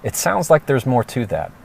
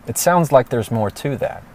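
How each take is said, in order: First: Calm checking question. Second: Calm checking question, rising. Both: Shown as a demonstration. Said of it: "respond with a question that checks them, like this".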